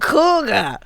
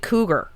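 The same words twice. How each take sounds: First: The word is said in an exaggerated New York accent. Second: The word is said in a plain, neutral accent. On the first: "I was always going cougar" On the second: "say it the normal way"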